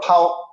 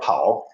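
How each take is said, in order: First: The syllable is said on a high level pitch. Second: The syllable is said with a falling pitch. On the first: ""Pao" with a high level tone" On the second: "instead of"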